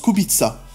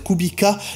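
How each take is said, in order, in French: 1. Le nom se prononce à la polonaise. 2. Le nom se prononce à la française.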